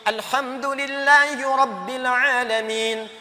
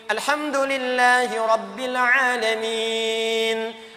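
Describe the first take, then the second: First: The final vowel is held about one second. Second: The final vowel is held about two seconds. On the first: "Satu detik" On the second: "Dua detik"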